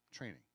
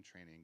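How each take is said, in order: First: "Training" set apart as its own emphatic word; single out "Training", falling firmly at the end; stress on TRAINING. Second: Said in the usual way. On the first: Shown as a demonstration. Lecturer singling out a key word for the audience, "Training" emphasized. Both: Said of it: "Let me emphasize that word".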